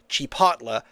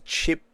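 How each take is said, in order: First: The T sound comes before the L sound. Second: The L sound comes before the T sound. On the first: The speaker calls it right. "the correct pronunciation" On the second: The speaker calls it wrong. "the worst thing you could say is Chipotle and get the T and the L mixed"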